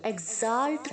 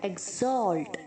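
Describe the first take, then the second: First: The second syllable has an 'a' vowel. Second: The second syllable has an 'o' vowel. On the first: The speaker calls it wrong. "एक्साल्ट नहीं बोलना" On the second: The speaker calls it right. "जो ए है वो ओ की तरह sound होना चाहिए"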